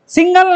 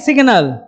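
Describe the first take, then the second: First: The g sound comes after the n. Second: The g sound comes before the n. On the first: The speaker calls it wrong. "सिंगल नहीं" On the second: The speaker calls it right. "सिग्नल होता है"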